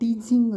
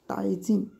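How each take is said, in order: First: The syllable is said with an 'ee' vowel. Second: The syllable is said with an 'ai' vowel. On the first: The speaker calls it wrong. "काही वेळा टीझिंग असं होतं, पण तसं होत नाही उच्चारमध्ये" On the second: The speaker calls it right. "तर ॲड ॲडव्हर्टायझिंग असं होतं"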